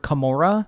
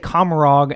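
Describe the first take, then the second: First: The name ends in an open vowel like 'Camorra'. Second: The name ends with a clear final 'g' sound. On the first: This is how others have said it should be said. The speaker calls it right. "we heard more than one time that it's more Camorra" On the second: This is how the speakers usually say it. The speaker calls it wrong. "we say Commorog"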